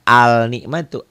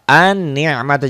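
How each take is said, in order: First: Al-ni'matu with the l sounded before the n; wrong pronunciation. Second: An-ni'matu with the l silent and a doubled n, slowish; correct assimilated al. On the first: Teacher shows pupils the wrong reading, mock error. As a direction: sound the l clearly in al-ni'matu as the mistake. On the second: Teacher shows the right reading to pupils, careful and slow. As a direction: say An-ni'matu, gliding straight into the doubled n. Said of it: "jangan al-ni'matu". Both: Shown as a demonstration.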